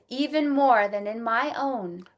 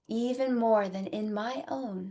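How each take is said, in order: First: It is said very loudly. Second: It is said softer, in a speaking voice.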